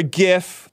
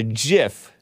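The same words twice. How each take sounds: First: "gif" starting with a hard g sound. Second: "gif" starting with a j sound; soft-g gif. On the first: Host offers the other way, "gif" with a hard g. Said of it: "Some of you guys call it gif". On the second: Host offers his own way first, "gif" with a soft g. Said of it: "but I call it gif". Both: Shown as a demonstration.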